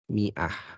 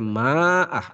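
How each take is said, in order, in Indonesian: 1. Vokal pertama adalah 'i' pendek. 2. Vokal pertama adalah 'a' panjang. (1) "alifnya itu tidak dibaca" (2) "jadi tidak dibaca ma'ah"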